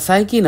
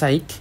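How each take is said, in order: First: The word ends with an "ee" vowel sound. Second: The word ends with a "k" consonant sound. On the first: The speaker calls it wrong. "সাইকি না" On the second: The speaker calls it right. "আসলে এন উচ্চারণ হবে সাইক"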